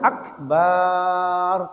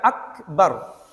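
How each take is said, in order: First: The vowel before the final r is lengthened. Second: The vowel before the final r is short. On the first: The speaker calls it wrong. "Tidak boleh dibaca akbar, tidak boleh" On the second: The speaker calls it right. "Harus dibaca akbar"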